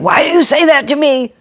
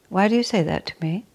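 First: It sounds defensive and accusing. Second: It sounds calm and genuinely curious. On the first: The question is an attack on the other person. The speaker calls it wrong. "And you don't say" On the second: The question is a sincere wish to understand. The speaker calls it right. "You just say"

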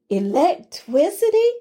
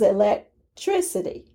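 First: The word is pronounced loosely, with sounds slurred. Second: The word is pronounced clearly, with every sound distinct. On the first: The speaker calls it wrong. "I had grown lax in my enunciation of the word" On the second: The speaker calls it right. "The word is electricity"

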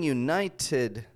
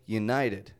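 First: The middle T is a crisp, released T. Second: The middle T is a quick, soft flap. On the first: The speaker calls it wrong. "I'm not saying United States" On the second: The speaker calls it right. "but United"

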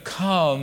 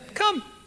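First: It is said casually, as a reluctant afterthought. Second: It is said as a firm, direct command.

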